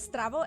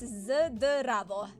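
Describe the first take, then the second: First: The word begins with an S-T sound. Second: The word begins with a Z-D sound. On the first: The speaker calls it wrong. "instead of Stravo" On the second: The speaker calls it right. "it's Z D instead of S T"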